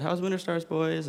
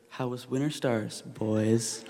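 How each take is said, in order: First: High, breezy cheerful greeting; cheerful mom asking lightly, pitched high. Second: Dry, knowing mom with arms crossed; super sarcastic. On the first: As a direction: imitate a mom's chirpy welcome home. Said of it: "she said cheerfully". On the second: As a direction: imitate a mom who knows she's been lied to. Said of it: "in this super sarcastic tone". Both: Retold or imitated.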